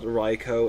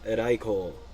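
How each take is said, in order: First: The name is said with an English-style pronunciation. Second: The name is said with a Japanese-style pronunciation. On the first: The speaker calls it wrong. "it's not Raiko" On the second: The speaker calls it right. "it's Raiko ... that's how you pronounce it in Japanese"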